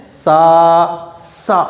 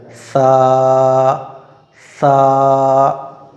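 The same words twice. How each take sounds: First: सा said with a whistling hiss; wrong whistling s. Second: सा with the tongue tip against the front teeth. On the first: Teacher shows the common mistake, whistling hiss. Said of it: "ये गलत है". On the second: Teacher shows students the right way, tongue on teeth. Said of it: "आगे के दांतों पर लगाना है". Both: Shown as a demonstration.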